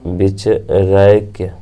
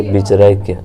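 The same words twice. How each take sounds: First: बिचरैक्य stretched slowly, each syllable clear; slow, drawn out. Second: Said in the usual way. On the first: Shown as a demonstration. Teacher repeating बिचरैक्य slowly for students.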